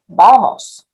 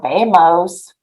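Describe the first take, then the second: First: It is said with native Spanish vowels and stress. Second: It is said with English-style vowels and stress. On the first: The speaker calls it right. "we say vamos" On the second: The speaker calls it wrong. "or vamos"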